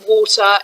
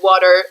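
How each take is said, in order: First: It is said in a British accent. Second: It is said in an American accent.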